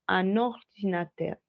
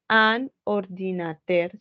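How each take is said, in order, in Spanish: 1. Las dos palabras se unen en una sola sílaba. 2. Las dos palabras se dicen por separado, no unidas. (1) "Como si fuera la misma sílaba" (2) "no voy a decir"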